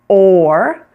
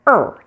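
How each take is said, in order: First: The vowel is a full long O sound. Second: The vowel is a short reduced schwa sound. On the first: "pronounced completely with the long O sound" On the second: "you can also pronounce it er if you choose, as the shorter variety, like the schwa"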